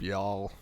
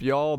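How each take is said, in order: First: Y'all dropped lower and softer with a fall; y'all said low and settled, falling; big-group y'all. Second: Y'all with a light rising tune; y'all lifted up at the end, brief; small-group y'all. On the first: For a big group, y'all low and falling. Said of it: "Big group". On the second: For a small group, y'all with a rise. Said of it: "Small group". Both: Shown as a demonstration.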